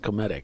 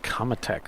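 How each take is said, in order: First: The name ends with a 'tic' sound. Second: The name ends with a 'tech' sound. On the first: The speaker calls it right. "It's Cometic" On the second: The speaker calls it wrong. "I've been saying it wrong all this time"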